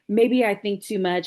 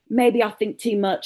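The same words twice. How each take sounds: First: It is said in the speaker's ordinary accent. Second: It is said in a put-on British accent.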